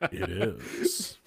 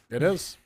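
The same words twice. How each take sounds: First: It is said in a sultry, seductive voice. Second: It is said in a plain, ordinary voice.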